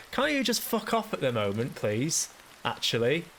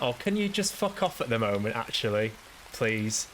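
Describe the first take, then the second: First: Pitched-up, mock-polite plea to go away; high, strained mock-polite exasperation; exasperated brush-off. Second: Mildly irritated, mock-polite brush-off; a touch of weary exasperation; exasperated brush-off. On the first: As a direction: beg the cheery voice to leave you alone, exasperated. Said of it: "and I was just like". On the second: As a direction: tell them to go away, fed up but restrained. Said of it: "And I just went".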